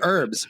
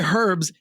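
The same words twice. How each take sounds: First: The word starts without an h sound. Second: The word starts with an h sound. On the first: This is how Americans say it. "We would say herbs" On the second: This is how English people say it. "The one H that the English people pronounce that we don't"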